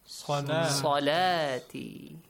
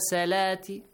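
First: The first consonant is a heavy s sound. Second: The first consonant is a light s sound. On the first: The speaker calls it right. "While it is?" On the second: The speaker calls it wrong. "it pronounced like seen. And also it was light one"

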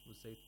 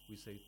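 Both takes have the same delivery.

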